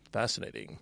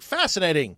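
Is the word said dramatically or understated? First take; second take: understated; dramatically. First: It is said quietly and understated. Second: It is said big and dramatically.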